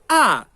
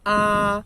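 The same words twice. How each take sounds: First: The pitch falls through the syllable. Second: The pitch stays high and level. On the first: "a quarta que cai" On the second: "a primeira entonação que é alta e plana"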